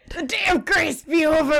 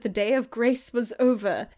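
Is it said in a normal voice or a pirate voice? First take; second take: pirate; normal. First: It is said in a pirate voice. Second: It is said in a normal voice.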